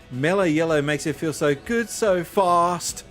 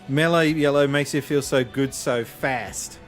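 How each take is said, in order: First: It is said in an Australian accent. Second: It is said in an American accent.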